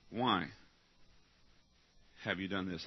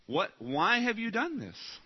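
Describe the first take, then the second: First: Low, soft, grave question; hushed question. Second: Higher, slow, pressing question; searching question. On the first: Angel of God confronting you, low and hushed. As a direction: drop it low and quiet, letting it sink in. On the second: Preacher voicing the angel's question, higher and slow. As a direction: press it slowly, each word weighed. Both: Shown as a demonstration.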